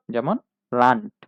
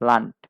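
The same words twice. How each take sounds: First: লান্ট said slowly, ending on a hard ট; final d as t. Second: লান্ট ending on a crisp ট; final d as t. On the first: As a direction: end লান্ট with a clean ট. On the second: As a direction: close লান্ট with a clear ট. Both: Shown as a demonstration. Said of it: "ট এর মতো উচ্চারণ হয়". (ট উচ্চারণে লান্ট)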